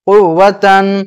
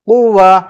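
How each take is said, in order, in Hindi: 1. यह शब्द नासिक्य '-tan' ध्वनि पर खत्म होता है। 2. यह शब्द नरम '-ah' ध्वनि पर खत्म होता है।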